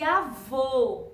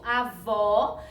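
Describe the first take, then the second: First: Avô ending on a long closed oh; closed, lower-sounding vowel. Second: Avó ending on a stressed open aw; open vowel. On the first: Teacher contrasting two words for pupils, long closed vowel in avô. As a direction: round and close the final o of avô, drawn out. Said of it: "com o sonzinho mais pra baixo". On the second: Teacher contrasting two words for pupils, open final vowel in Avó. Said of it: "que o sonzinho é aberto". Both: Shown as a demonstration.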